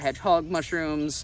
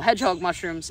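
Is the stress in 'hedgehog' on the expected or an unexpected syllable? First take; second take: unexpected; expected. First: The stress falls on an unexpected syllable. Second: The stress falls on the expected syllable. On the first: The speaker calls it wrong. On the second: The speaker calls it right.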